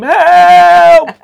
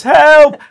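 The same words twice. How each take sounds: First: Long high screamed help. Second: Said in the usual way. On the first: Shown as a demonstration. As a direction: scream it like you're plunging. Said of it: "I might have to sort of act this out". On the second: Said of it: "it was just coming out as".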